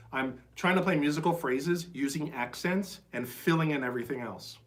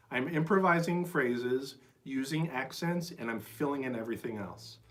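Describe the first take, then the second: First: Said in the usual way. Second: Slow and weighted, leaning on improvising and accents; slow, deliberate repeat. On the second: Shown as a demonstration. Teacher slowly repeating the key point for students. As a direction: spell the whole point out slowly so it sinks in. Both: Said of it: "That's worth repeating".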